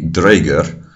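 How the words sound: It is said with modern Icelandic sounds. "In modern Icelandic"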